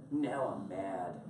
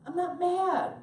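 First: Comic slow-burn anger; mock mad. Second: High, loud protest of not being mad; hammed-up indignant yell; mock angry denial. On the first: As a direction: drop low and drag it out, mock-seething. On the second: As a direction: protest too much, pitched way up. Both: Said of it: "Why are you so mad".

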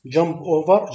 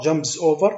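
First: Said in the usual way. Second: "jumps over" with the s clearly added and over rising; corrected wording. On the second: Shown as a demonstration. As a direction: fix it to "jumps over", landing the s. (تصحيح إلى "jumps over" بنطق السين بوضوح)

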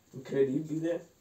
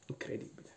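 First: Amazed, rising tune; rising exclamation. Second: Breathless whispered awe. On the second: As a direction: breathe it in disbelief. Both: Acted. Awed reaction, said twice.

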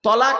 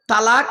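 First: তলাক with a heavy t and rounded o; correct form tolak. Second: তালাক with a light t and open a; wrong form talak. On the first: Preacher explaining separation, heavy tolak. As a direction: say তলাক as to-laaq. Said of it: "তলাক মানে". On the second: Preacher explaining the mistaken word, light talak. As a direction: say তালাক as ta-laak. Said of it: "তালাক মানে". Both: Shown as a demonstration.

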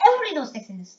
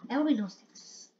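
First: "Everybody knows Texas" with EVERYBODY stressed and the line ending on a fall; emphatic indignant statement; emphatic complaint. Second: "Everybody knows Texas" said quickly and softly, with EVERYBODY still stressed; fast, quiet muttered grumble; muttered repeat. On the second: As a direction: grumble it under your breath. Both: Real, not acted. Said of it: "Like, why?".

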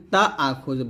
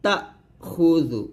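First: তা আখুযু with "taa" run straight on, no catch; smooth vowel glide in তা আখুযু; wrong lengthened ta. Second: তাখুযু as short "ta", pause, "khu-dhu"; break after ta. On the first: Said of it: "তা আখুযু বলবেন না". (তা আখুযু-র তা টেনে বলা) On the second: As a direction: cut off "ta" in তাখুযু before খুযু. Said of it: "তা বলে একটু ব্রেক করবেন". (তা বলে থেমে খুযু বলা) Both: Shown as a demonstration.

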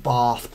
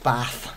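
First: "Bath" with a long AH, bahth; "Bath" drawn out as BAHTH; long-vowel pronunciation. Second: "Bath" with a short flat A; "Bath" with the vowel of "cat"; short-vowel pronunciation. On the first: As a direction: say "Bath" the southern English way, bahth. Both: Shown as a demonstration. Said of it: "there's always the argument".

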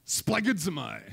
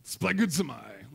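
First: Said in the usual way. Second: Mock German officer barking splagidzomai; hammed-up German officer accent on splagidzomai. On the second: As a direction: say splagidzomai slowly like a stern German officer, rising at the end. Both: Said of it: "like a German officer".

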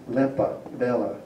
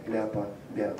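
First: Lepa, bella with plain e vowels; e form. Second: Lepa, bella with ya vowels, "LYA-pa, BYA-la"; ya form. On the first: Lecturer quoting the poetry, lepa, bella with e. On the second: Lecturer ruling out a form, lepa, bella with ya. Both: Shown as a demonstration. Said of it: "not lepa".

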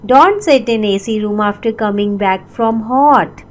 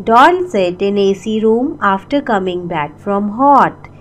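Both takes have the same delivery.

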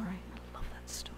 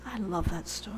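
First: Whisper. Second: Said in the usual way. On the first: Shown as a demonstration. Repeated as a whisper.

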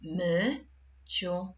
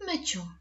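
First: "Myciu" split as my, long pause, ciu; syllable by syllable. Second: Said in the usual way. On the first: Shown as a demonstration. Teacher dividing the word for pupils, syllable by syllable. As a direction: say "Myciu" as two separate syllables. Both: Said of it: "Jak podzielisz to słowo na sylaby?".

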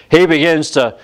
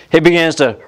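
Both takes have the same delivery.

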